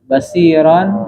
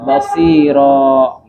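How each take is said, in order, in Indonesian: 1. Kata ini berakhir dengan bunyi n sengau. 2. Kata ini berakhir dengan vokal terbuka.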